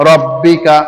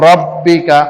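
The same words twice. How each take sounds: No difference in how they are said.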